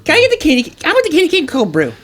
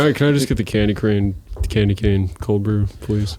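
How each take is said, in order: First: Very high, mocking little-kid voice; gleeful child. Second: Deflated. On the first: Friend mocking a coffee order, gleeful child voice. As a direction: squeal the order like a delighted child. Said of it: "you said it with such glee, like a child". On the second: Retold or imitated. Friend showing how to order coffee, deflated. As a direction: let the order sag toward a resigned please. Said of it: "you gotta be deflated about it".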